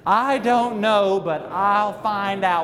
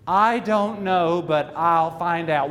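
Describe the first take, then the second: First: It is said firmly, with strong conviction. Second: It is said plainly, without special force.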